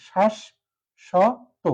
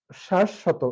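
First: শ্বাস and শত said apart with a pause between; teacher sounding out শ্বাস … শত piece by piece; syllable-by-syllable demo. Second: শ্বাস শত said joined as one word; teacher giving the joined-up model of শ্বাস শত; correct pronunciation demo. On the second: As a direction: run শ্বাস straight into শত. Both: Shown as a demonstration. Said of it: "এটা হচ্ছে সঠিক উচ্চারণ".

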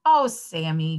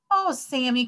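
First: Understated teacher's groan. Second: Higher-pitched exclamation of dismay; children crying out. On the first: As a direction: groan it in mild dismay. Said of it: "groaned the teacher". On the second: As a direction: cry out in mild protest. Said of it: "cried the children". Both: A narrator's reading.

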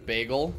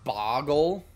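First: BAGEL said "BAY-gul", rising at the end; bagel with long A. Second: BAGEL turned into "BOGGLE", open first vowel. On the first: Streamer weighing up how people say a word, BAGEL as "BAY-gul". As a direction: say BAGEL with an "ay" first vowel. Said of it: "Oh, instead of ba-, boggle". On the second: Streamer trying another way to say bagel, BOGGLE with an "ah". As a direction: say BOGGLE, "BAH-gul", for bagel. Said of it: "Oh, instead of ba". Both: Shown as a demonstration.

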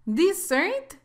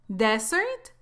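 First: "Dessert" stressed on the second syllable; dessert, the sweet. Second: "Desert" stressed on the first syllable; desert, dry land. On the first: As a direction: say "Dessert" as di-ZERT. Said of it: "Dessert significa postre". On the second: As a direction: say "Desert" as DEZ-ert. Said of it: "Desert significa desierto". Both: Shown as a demonstration.

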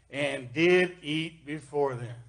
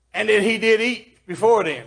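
First: Said in the usual way. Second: "did eat" hit higher and louder; stress on DID EAT. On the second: Shown as a demonstration. Preacher proving the risen Jesus really ate, stress on DID EAT. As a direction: punch "did eat" to prove the point. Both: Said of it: "I'm gonna just stress on that".

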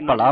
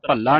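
First: ਭਲਾ with one light l; bha-laa, no doubling in ਭਲਾ; single light l. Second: ਭੱਲਾ with a short vowel and long ll; ਭੱਲਾ as bhal-laa; doubled l. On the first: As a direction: pass lightly over the l of ਭਲਾ. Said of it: "ਭਲਾ ਬੋ-, ਬੋਲਣਾ ਹੈ". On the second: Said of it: "ਇਸ ਤਰ੍ਹਾਂ ਭੱਲਾ ਨਹੀਂ". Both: Shown as a demonstration.

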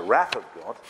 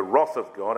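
First: "wrath" with the short A of "math"; American pronunciation. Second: Said in the usual way. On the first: Shown as a demonstration. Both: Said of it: "I refer to it now as".

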